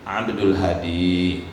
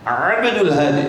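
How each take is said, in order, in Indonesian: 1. Bunyinya diucapkan dengan biasa dan alami. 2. Bunyinya dipaksakan dan berlebihan.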